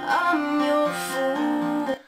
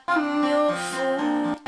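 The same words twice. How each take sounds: No difference in how they are said.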